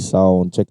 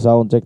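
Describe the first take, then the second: First: The voice has full treble and sounds bright. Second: The voice has little treble and sounds dull. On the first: "'Pag naka fully volume tayo sa treble" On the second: "'pag nakababa tayo"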